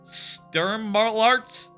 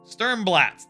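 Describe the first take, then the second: First: The last syllable has an R sound. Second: The last syllable has no R sound. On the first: The speaker calls it wrong. "There's not an R in there" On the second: The speaker calls it right. "There we go"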